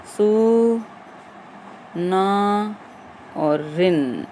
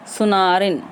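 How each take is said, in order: First: "सु... ना... और रिन", each part drawn out and set apart; broken into parts. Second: Said in the usual way. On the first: Shown as a demonstration. Teacher shows students how the word forms, piece by piece. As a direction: spell out सुनारिन slowly, pausing after सु and ना. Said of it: "ऐसे बनेगा ये". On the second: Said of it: "अब ये शब्द कैसे बन जाएगा".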